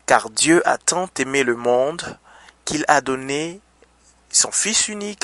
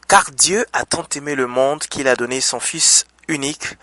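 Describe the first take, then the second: First: It is read at a slower, deliberate pace. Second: It is read at a normal, quicker pace.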